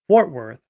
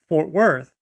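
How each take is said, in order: First: The stress falls on the word fort. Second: The stress falls on the word worth. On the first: The speaker calls it right. "the pronunciation is is centered on the word fort instead of the word worth" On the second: The speaker calls it wrong. "It's not Fort Worth"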